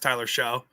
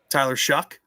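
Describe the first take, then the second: First: The surname ends in an open vowel. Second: The surname ends with a k sound. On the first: The speaker calls it wrong. "I thought it was Tyler Show" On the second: The speaker calls it right. "pronounce that again ex- the right way"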